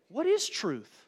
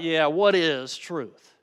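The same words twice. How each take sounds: First: Sincere question. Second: Slow, scoffing "Yeah, what is truth?" with a drawn-out "what"; condescending. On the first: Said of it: "You can read it like Pilate was saying". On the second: Preacher showing Pilate's scornful reply to Jesus, condescending. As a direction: sneer the question back, dismissive. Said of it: "in a condescending way". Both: Shown as a demonstration.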